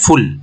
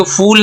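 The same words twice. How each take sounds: First: फुल with a quick, short u; short vowel. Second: फूल with a stretched 'oo'; wrong long vowel. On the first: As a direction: go straight from f to l in फुल. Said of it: "ये short vowel के साथ आ गया". (फुल में छोटा उ) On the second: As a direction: drag out the oo in फूल as the mistake. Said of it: "इसको फूल नहीं बोलेंगे". (फूल में लंबा खिंचा ऊ) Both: Shown as a demonstration.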